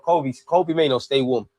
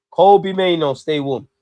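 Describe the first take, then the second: First: Said in the usual way. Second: Louder, calling out to the bench. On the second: Acted. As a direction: call it out so the bench hears. Calling for a sub again.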